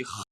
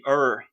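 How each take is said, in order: First: "r" as a throaty, H-like friction sound; back fricative R. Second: "er" as an English-like curled-tongue R; retroflex R. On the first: Linguist isolating the Rio sound, fricative R. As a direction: say "r" as the carioca fricative. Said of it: "são sons de R". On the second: Linguist isolating the countryside sound, retroflex R. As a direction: say "er" with the caipira R. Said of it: "esses dois sons de er e de r". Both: Shown as a demonstration.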